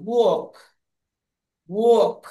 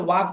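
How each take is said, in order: First: ওয়াক as "wawk", vowel rounded and held; rounded aw sound. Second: ওয়াক as "waak", open "ah"; short ওয়াক with "ah" as in "back of the throat"; common wak pronunciation. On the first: Teacher models the correct form, ওয়াক as rounded "wawk". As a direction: say each ওয়াক with a falling "aw". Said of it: "ও উচ্চারণ হয়". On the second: Teacher shows the mistaken form, ওয়াক as "waak". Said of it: "উচ্চারণ ওয়াক না". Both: Shown as a demonstration.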